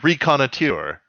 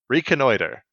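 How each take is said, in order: First: The ending sounds like the end of saboteur. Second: The ending sounds like the end of loiter. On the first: The speaker calls it wrong. "I thought it was like reconnoiteur. Like saboteur" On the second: The speaker calls it right. "Nope. Reconnoiter"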